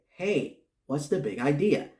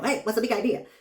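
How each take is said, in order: First: It is said slowly and deliberately. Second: It is said fast in a squeaky voice.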